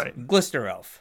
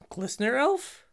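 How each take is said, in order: First: It is said firmly, with authority. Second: It is said hesitantly, like a question. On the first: The spell is certainly resolving now. The speaker calls it right. "he casts it with authority" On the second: The outcome is in doubt. The speaker calls it wrong. "it's not like"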